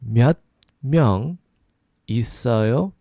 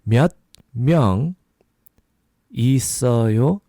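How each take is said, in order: No difference in how they are said.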